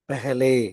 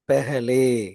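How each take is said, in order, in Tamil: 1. முதல் உயிரெழுத்து 'e' ஒலி. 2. முதல் உயிரெழுத்து 'e' ஒலி.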